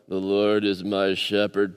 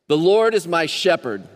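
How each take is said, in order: First: It is read flatly with little energy. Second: It is read lively with more energy. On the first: The speaker calls it wrong. "Don't read it like that" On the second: The speaker calls it right. "Let's bring a little energy today"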